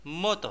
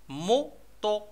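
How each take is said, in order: First: Said in the usual way. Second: "موطو" in two separated beats, mo, to; split into syllables. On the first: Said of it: "لي سيلاب اللي كيتكونوا منهم". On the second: Shown as a demonstration. Teacher sounding out the second picture for children, "موطو" syllable by syllable. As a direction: break "موطو" apart, syllable by syllable. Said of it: "غادي نشوفو لي سيلاب اللي كيتكونوا منهم".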